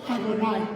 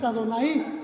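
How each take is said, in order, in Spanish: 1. La i final se desliza sobre la a anterior. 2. La i final es una sílaba aparte y tónica. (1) "es Adonai. Así se pronuncia" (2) "No es Adonai"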